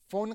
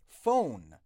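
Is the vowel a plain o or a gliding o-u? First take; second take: plain; gliding. First: The vowel is a plain, flat o sound. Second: The vowel glides from o towards u. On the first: The speaker calls it wrong. "فون غلطه" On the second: The speaker calls it right. "او خالی نیست"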